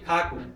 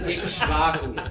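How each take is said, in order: First: The middle has an aspirated kh sound. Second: The middle has a kshv consonant cluster.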